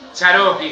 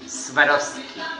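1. La palabra empieza con sonido ch. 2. La palabra empieza con sonido s-w. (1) "Charovsky, CH Charovsky. No, mi amor" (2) "Repeat after me, Swarovski. Así es que se dice"

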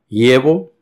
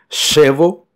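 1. Empieza con un sonido y. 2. Empieza con un sonido sh. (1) "como si fuese una letra I" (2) "equivale a un C H do portugués"

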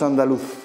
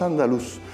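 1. La z final se pronuncia como un sonido 'th'. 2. La z final se pronuncia como un sonido 's'. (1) "no decimos andaluz" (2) "decimos andaluz"

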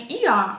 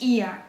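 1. Наголос падає на останню «a». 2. Наголос падає на перший «i». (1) "не «іа»" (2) "а ось «іа»"

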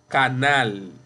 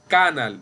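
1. La sílaba tónica es la última. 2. La sílaba tónica es la primera. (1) "Decimos canal. Nal. Último lugar" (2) "No decimos canal"

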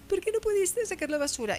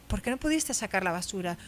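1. La pregunta se repite con un tono burlón y sarcástico. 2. La pregunta se hace con un tono sincero.

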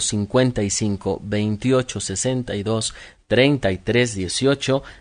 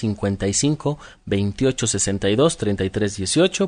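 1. Los números se leen despacio. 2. Los números se leen rápido. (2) "lo dijiste muy rápido"

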